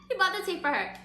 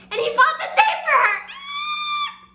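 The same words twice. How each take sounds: First: High-pitched gush at normal volume; excited but reined in; subdued squeal. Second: Very high, loud fangirl shriek; real gushing outburst, squealing; excited squeal. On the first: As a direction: repeat it high, winding down from a scream. Repeats it after the squeal. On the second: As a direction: burst into a laughing, delighted scream. Storyteller gushes over romantic moment. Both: Real, not acted.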